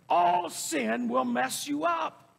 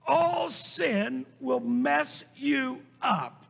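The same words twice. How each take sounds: First: Raised, drawn-out warning; emphatic preaching. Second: "All sin will mess you up" slow, each word hit separately; word-by-word emphasis. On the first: Preacher warning the congregation, emphatic. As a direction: preach it as one connected, forceful line. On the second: Preacher repeating the warning after the Amen, word-by-word emphasis. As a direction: stretch "All" and land "up" on its own. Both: Real, not acted.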